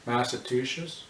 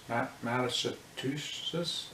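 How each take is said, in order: First: Said in the usual way. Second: Massachusetts said very slowly, stumbling on Ma-; struggling to say it. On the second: Shown as a demonstration. Vlogger fumbling a hard state name, slow and halting. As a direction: drag out Massachusetts, syllable by syllable, after a false start. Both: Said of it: "I can't even say that state".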